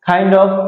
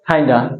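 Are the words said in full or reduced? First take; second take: full; reduced. First: Both words are said fully and separately. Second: The words are reduced and blended into one.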